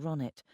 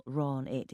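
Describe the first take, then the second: First: "Ronit" with the second syllable stressed. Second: "Ron it" with the first syllable stressed. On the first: Narrator showing her name properly, "Ronit" stressed on the second syllable. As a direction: lean on the final nit in "Ronit". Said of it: "instead of the second". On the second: Narrator showing colleague's mispronunciation, "Ron it" stressed on the first syllable. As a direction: lean on the Ron in "Ron it". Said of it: "putting the stress on the first syllable". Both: Shown as a demonstration.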